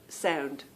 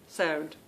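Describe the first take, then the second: The two takes are said the same way.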